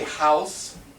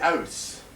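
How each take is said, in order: First: The word begins with an h sound. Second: The word begins without an h sound. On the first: "They do not say house" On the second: "They say house. ... They drop the H's"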